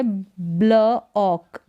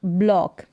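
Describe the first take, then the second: First: ब्ल ऑक in two separate parts; sounded out. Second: Said in the usual way. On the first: Shown as a demonstration. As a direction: pause between ब्ल and ऑक. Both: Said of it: "इसको पढ़ेंगे".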